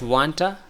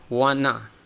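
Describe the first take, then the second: First: The T sound is pronounced. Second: The T sound is dropped. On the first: "Like wanta" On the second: "we skip the T sound"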